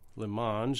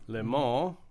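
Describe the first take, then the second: First: It is pronounced in an American way. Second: It is pronounced in a French-style way.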